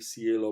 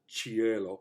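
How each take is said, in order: First: The first consonant follows Austrian Latin style. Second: The first consonant follows standard Italian style. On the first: "Austrian uh, Latin or Austrian Italian" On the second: "if it were really just Italianate"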